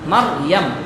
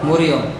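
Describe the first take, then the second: First: The name is said as 'Maryam' with a vowels. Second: The name is said as 'Moriyom' with o vowels. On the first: The speaker calls it right. "মিম র জবর মার, ইয়ামিম জবর ইয়াম" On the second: The speaker calls it wrong. "আমরা উচ্চারণ আবার ভুল করি, আমরা মরিয়ম বলি"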